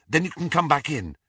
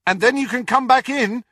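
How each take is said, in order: First: Said in the usual way. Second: High, loud call up the steps; shouted after her. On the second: A narrator's reading. Harry calling after Ginny as she runs off, shouting. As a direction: call after someone running away. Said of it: "he shouted after her".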